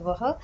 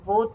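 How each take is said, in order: First: The pronoun sounds like 'vah' with an open vowel. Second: The pronoun sounds like 'wo' with a rounded vowel. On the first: This follows the written spelling. "what if I pronounce it as vah" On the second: This is the everyday colloquial form. "the pronunciation colloquially is wo"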